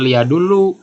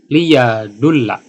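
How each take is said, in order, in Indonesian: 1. Kata ini berakhir dengan vokal 'u'. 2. Kata ini berakhir dengan vokal 'a'. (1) "bukan lia dulu" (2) "jadi cara bacanya"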